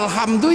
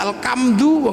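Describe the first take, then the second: First: The consonant after 'al' is an h sound. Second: The consonant after 'al' is a k sound. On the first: The speaker calls it right. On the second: The speaker calls it wrong.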